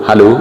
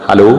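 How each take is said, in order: No difference in how they are said.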